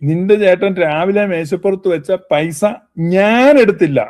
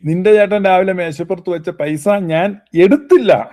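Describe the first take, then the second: First: The stress falls on the word ഞാൻ. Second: The stress falls on the word എടുത്തില്ല. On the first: Someone else may have taken it. "അപ്പൊ ഊന്നൽ ഞാനും കൊണ്ട് കൊടുത്തു കഴിഞ്ഞാൽ" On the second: The money may have been hidden rather than taken. "എടുത്തില്ല എന്നുള്ളതിന് ഊന്നൽ കൊടുത്താൽ"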